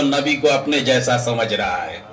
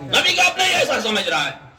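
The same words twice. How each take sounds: First: Very low, sinking pitch; low, settled close of a thought; grave statement. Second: High, quick, indignant-style repeat; high-pitched rapid preacher's exclamation; emphatic repetition. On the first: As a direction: drop the voice and let it land. Preacher lands the point before repeating. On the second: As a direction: throw it out fast on a raised pitch. Preacher repeats point for the crowd. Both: Real, not acted.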